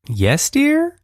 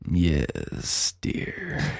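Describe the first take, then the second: First: It sounds like a rising question. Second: It sounds creepy, like Hannibal Lecter.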